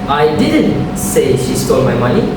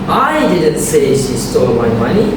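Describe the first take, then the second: First: The stress falls on the word didn't. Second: The stress falls on the word I. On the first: The claim is denied. "which means I deny it" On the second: Someone else said it. "which means someone else did"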